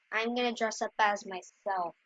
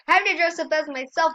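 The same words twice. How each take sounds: First: Said in the usual way. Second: Higher, louder, faster with have punched; stress on have. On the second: Real, not acted. Kid correcting herself to viewers, leaning on have. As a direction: insist hard on have.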